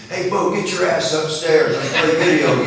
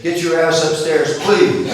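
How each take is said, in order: First: Put-on higher, louder cheeky kid barking an order; cocky grandson. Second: Put-on higher, louder cheeky kid tacking on a proud please; grandson's polite retry. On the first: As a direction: boss grandpa around like a big-brother-copying brat. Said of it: "which explains what is coming next". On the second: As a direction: deliver the rude order with innocent politeness. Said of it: "We say please and thank you".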